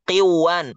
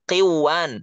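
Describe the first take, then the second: First: The n sound merges into the following w. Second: The same.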